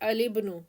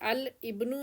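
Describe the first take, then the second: First: The L runs straight into the following vowel. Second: The L and the following vowel are separated.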